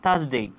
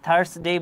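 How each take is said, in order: First: No r sound is pronounced in the first syllable. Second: An r sound is pronounced in the first syllable. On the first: The speaker calls it right. "আমরা আর উচ্চারিত করব না, আমরা বলবো থার্সডে" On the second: The speaker calls it wrong. "আমরা থার্সডে বলবো না"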